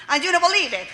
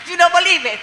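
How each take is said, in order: First: Said in the usual way. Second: "don't" pushed out louder and slightly higher; emphatic repeat. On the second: Real, not acted. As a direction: hammer the repeat home on "don't".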